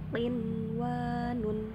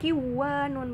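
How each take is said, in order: First: The n sound is pronounced clearly before w. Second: The n sound merges into the following w. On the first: The speaker calls it right. "Dibacanya juga jelas" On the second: The speaker calls it wrong. "bukan bukan kiwanun"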